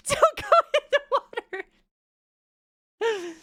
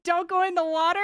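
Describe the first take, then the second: First: Laughing through it, fast and high. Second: Said in the usual way. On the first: Real, not acted. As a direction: giggle out the warning. Repeats rule while laughing.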